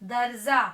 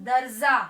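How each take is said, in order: The two takes are said the same way.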